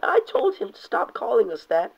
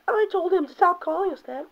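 First: A touch higher reading; lightly raised Firestar line; plain first take. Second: Far higher squeaky mock falsetto; hammed-up Firestar, much higher; girly Firestar voice. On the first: Acted. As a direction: read it almost straight. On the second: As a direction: squeak it in a silly girl voice. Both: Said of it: "Firestar saying".

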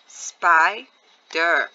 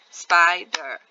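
First: SPIDER broken as SPI ... DER; split into syllables. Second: Said in the usual way. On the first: Shown as a demonstration. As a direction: say SPIDER in two firm, separate beats. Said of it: "when I break it up". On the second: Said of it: "When I say the word spider".

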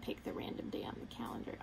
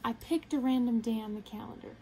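First: Softer, breathy whispered correction; whispered aside. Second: Said in the usual way. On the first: Real, not acted. Whispered correction of previous line.

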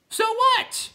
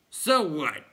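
First: Very high, loud shriek; called down. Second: Raised, loud clown retort; dismissive clown. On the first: Clown calling down to Bastian, shrill high yell. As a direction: yell it down from the tower top. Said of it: "the first called down". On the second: Clown answering the others, loud retort. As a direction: toss it back cheekily. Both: A narrator's reading.

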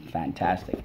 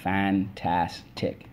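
First: Said in the usual way. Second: "fantastic" stretched slowly as fan-tas-tic; syllable by syllable. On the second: Shown as a demonstration. Teacher leading the class, slowly syllable by syllable. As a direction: tap "fantastic" out slowly, one syllable per finger. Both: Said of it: "let's go".

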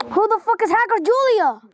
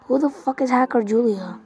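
First: Incredulous. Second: Said in the usual way. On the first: Real, not acted. Gamer repeats question, incredulous. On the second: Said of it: "repeated with different delivery".

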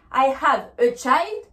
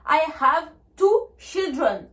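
First: Put-on slow "child" with long eye vowel, rising; slow teacher's model, "child" as chaild; singular form. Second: Put-on slow "children" with short i, falling; slow teacher's model, "children" as chil-dren; plural form. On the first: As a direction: lift the end on "child". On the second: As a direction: stretch "two", then let "children" fall. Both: Shown as a demonstration.

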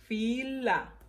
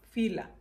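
First: "Fila" split into fi, la; syllable by syllable. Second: Said in the usual way. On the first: Shown as a demonstration. Teacher reviewing the words, "Fila" broken fi... la. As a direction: pause between fi and la in "Fila". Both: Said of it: "vamos a repasar las palabras".

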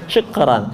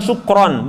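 First: "Syukran" with an open, unrounded a in ran. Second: "sukron" with a round o in ron; wrong rounded vowel. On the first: Teacher modelling for students, open low-pitched "Syukran". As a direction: keep lips unpursed on the ran of "Syukran". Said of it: "tapi ra". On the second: Teacher showing the mistake, rounded "sukron". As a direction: purse the lips on the end of "sukron". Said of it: "Jadi bukan sukron". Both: Shown as a demonstration.

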